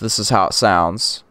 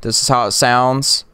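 First: The voice is heard without the effect applied. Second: The voice is heard with the effect applied.

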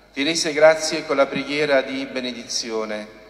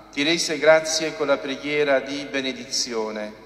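Both takes have the same delivery.

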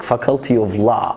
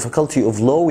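First: The vowel in law is open, mouth wide. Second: The vowel in law is closed, not open. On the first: It means the faculty of law. The speaker calls it right. "افتح بقك" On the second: It sounds like the word for low. The speaker calls it wrong. "لو قلت Faculty of Law يعني كلية الوطين"

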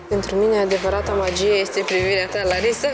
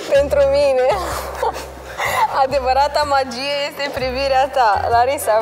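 First: The sentence is said at a quieter volume. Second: The sentence is said at a louder volume.

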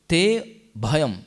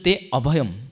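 First: The vowel a before bhayam is dropped. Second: The vowel a before bhayam is pronounced. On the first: "when you delete it, we pronounce it with previous word" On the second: "Instead of"

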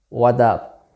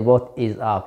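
First: The word 'is' is dropped completely. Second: The word 'is' is said in full. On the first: "some native speakers pronounce this phrase as a what up" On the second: "you don't say what is up"

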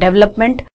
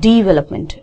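First: The first vowel sounds like 'e'. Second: The first vowel sounds like 'i'. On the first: The speaker calls it wrong. "It's not डेवलपमेंट" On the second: The speaker calls it right. "It's डिवेलपमेंट"

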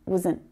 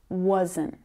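First: The word is flattened and reduced. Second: The word is full and clearly pronounced. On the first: This is how it sounds unstressed in a sentence. "the sound really flattens out and it becomes a lot more like wasn't" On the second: This is how it sounds when said carefully. "To clearly pronounce this word, it needs to be wasn't"

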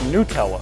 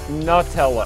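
First: The first syllable sounds like 'new'. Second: The first syllable sounds like 'nut'. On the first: "I've always said it Nutella" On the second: "my wife insists that it's Nutella because it's made of a hazelnut"

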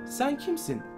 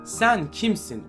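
First: It sounds like a curious, open question. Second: It sounds like a scornful, challenging question. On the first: The asker genuinely wants to know the person. The speaker calls it right. "Sen kimsin değil" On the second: The asker challenges the person's right to be different. The speaker calls it wrong. "bu sorunun hep yanlış tonlamasına sıkışıp kalmış durumdayız"

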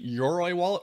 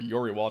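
First: The name is said with three syllables, Yo-ro-i. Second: The name is said with two syllables, Yo-ri.

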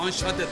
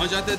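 First: The middle consonant is a voiceless 'sh' sound. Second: The middle consonant is a voiced 'zh' sound. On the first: The speaker calls it right. "o anşante. Doğrusunu öğren" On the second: The speaker calls it wrong. "Anjante değil"

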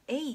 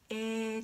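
First: The vowel is two sounds, e then i. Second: The vowel is one long stretched e sound. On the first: "えいっていうふうに発音するの ちょっとめんどくさい" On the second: "えーっていうふうに伸ばすんですね"

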